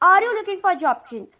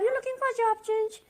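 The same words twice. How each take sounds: First: It is said loudly and firmly. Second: It is said softly and slowly.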